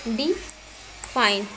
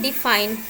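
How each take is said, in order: First: डिफाइन broken in two, "dee ... fine", long gap between; split into syllables. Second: Said in the usual way. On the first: Shown as a demonstration. Teacher showing students syllables, डिफाइन split slowly as dee ... fine. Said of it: "जिसको मैंने दो part में". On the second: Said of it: "जब भी आप डिफाइन बोलते हैं".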